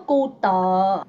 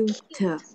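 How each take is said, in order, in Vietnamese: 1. Có thêm một nguyên âm sau âm t cuối. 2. Từ kết thúc gọn ở âm t. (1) "Không có cu tờ" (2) "Cái từ dễ thương mình đọc là cute"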